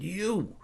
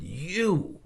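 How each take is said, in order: First: A startled, indignant "You."; a high, accusing "You."; pissed. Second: Sharp, high, angry "You."; pissed. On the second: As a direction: spit out "You." at him, annoyed. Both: Retold or imitated. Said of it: "I was so pissed".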